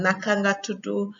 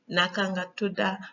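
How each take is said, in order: First: Senegalese Wolof, "tudu" with final "oo"; Senegalese accent. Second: Gambian Wolof, "tuda" with final "ah"; Gambian accent. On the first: Teacher contrasting the two accents for learners, Senegalese accent. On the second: Teacher contrasting the two accents for learners, Gambian accent. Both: Shown as a demonstration. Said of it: "Senegalese accent and Gambian accent".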